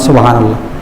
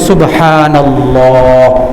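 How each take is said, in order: First: The 'ha' vowel is short and quick. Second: The 'ha' vowel is drawn out long. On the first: The speaker calls it wrong. "আমরা বসে বসে এমনি বলি" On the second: The speaker calls it right. "এক আলিফ টান হবে সুবহা"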